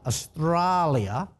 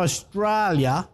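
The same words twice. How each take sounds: First: AUSTRALIA stretched out slowly in a put-on Australian accent; best Australian accent. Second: Said in the usual way. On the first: Shown as a demonstration. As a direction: draw out "Australia" in a showy Aussie accent. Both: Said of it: "that's me good, bestest Australian accent".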